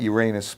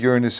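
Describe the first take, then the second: First: The ending sounds like the word 'anus'. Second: The ending does not sound like 'anus'. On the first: It invites a rude joke. "not Uranus because I don't want to make any jokes" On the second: It avoids a rude joke. "I said Uranus"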